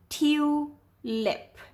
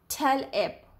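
First: The first vowel is a long sound. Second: The first vowel is a short sound. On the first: The speaker calls it right. "Let's read it with the long sound" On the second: The speaker calls it wrong. "Read it with the short sound"

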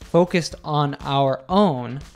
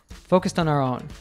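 First: Each word is said separately, without linking. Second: Each word runs smoothly into the next one. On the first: The speaker calls it wrong. "She doesn't say this like" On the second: The speaker calls it right. "the last sound of each word links onto the first sound of the next word"

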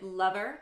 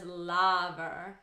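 First: The first vowel is an UH sound. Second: The first vowel is a bright AH sound. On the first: "I pronounce it lover, kind of with a UH vowel in there" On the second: "[name] pretty distinctly says lover, a nice AH vowel"

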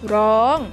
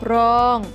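First: The syllable is said with a high tone. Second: The syllable is said with a level mid tone. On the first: "ร้องเป็นเสียงตรี" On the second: "รองเป็นเสียงสามัญ"

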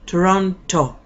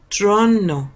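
First: The second T is clearly pronounced after the N. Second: The second T is dropped, sounding like N. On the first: "¿Puede usted decir Toronto? Claro que sí puede" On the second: "La primera O casi no suena tampoco. Y la T no suena para nada, suena como otra N"

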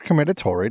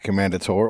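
First: The name is said in a fancier, more elaborate way. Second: The name is said in a plain, everyday way.

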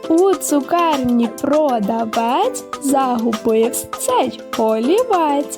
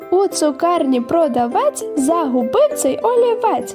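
First: The sentence is spoken at a slower pace. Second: The sentence is spoken at a faster pace.

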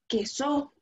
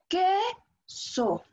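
First: The stress is on the second syllable. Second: The stress is on the first syllable. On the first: The speaker calls it wrong. "Si nosotros pronunciamos más fuerte la sílaba so" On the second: The speaker calls it right. "si nosotros pronunciamos más fuerte la que, va a decir queso"

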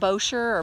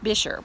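First: The name is given a spelling-based pronunciation. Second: The name is given its local pronunciation. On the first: The speaker calls it wrong. "It looks more like Boscher or Buescher" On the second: The speaker calls it right. "but it's Buescher"

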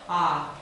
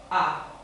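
First: The vowel starts gently with no catch. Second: The vowel starts abruptly after a brief catch. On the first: "если мы не будем ее делать, это будет а. А, она будет мягкая" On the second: "перед фонацией, перед произведением звука, мы делаем задержку"

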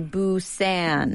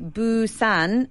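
First: It is said with a North American accent. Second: It is said with a Scottish accent.

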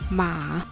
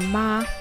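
First: The syllable is said with the third tone. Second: The syllable is said without the third tone. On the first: It means horse. "It uses third tongue, so it reads 马" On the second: It means mother. "马 has a similar pronunciation of the 马"

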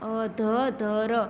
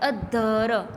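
First: The middle consonant is followed by a vowel. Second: The middle consonant is doubled without a vowel.

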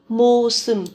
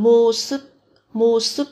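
First: The word ends with a nasal sound. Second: The word ends with a stop sound. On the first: "biến âm thành mô sừng"

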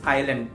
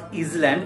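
First: The S sound is left out of the word. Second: The S sound is pronounced in the word. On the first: The speaker calls it right. "it is island" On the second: The speaker calls it wrong. "I-S-L-A-N-D is not island"

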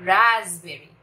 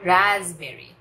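Both takes have the same delivery.

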